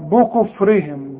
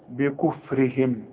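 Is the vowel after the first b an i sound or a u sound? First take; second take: u sound; i sound. First: The first b is followed by a u vowel. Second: The first b is followed by an i vowel. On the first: The speaker calls it wrong. "في ناس كتير تقول لك بكفرهم بو بو" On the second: The speaker calls it right. "يا راجل البه مكسورة"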